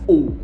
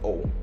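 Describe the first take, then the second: First: The O vowel is strong and fully rounded. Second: The O vowel is weak and lightly rounded. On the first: "But in British accent, they pronounce it as O" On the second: "In American accent, they will not emphasize it. They will pronounce it as O, not that strong"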